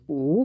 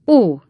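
First: Said in the usual way. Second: Loud, higher sighing "Ó"; big sigh. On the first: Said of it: "nyugtalanul nézegetett az ajtó felé". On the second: A narrator's reading. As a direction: sigh it out heavily on "Ó". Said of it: "ismételte Smangle úr egy nagyot sóhajtva". (nagyot sóhajtva)

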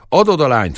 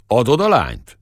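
First: Louder, sharper repeated demand; shepherd pressing the question a second time; impatient demand. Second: Louder, pushy demand; gruff shepherd pressing his rival; blunt demand. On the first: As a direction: Adod punched, losing patience. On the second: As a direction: Adod a lányt thrown out as a challenge. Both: Acted.

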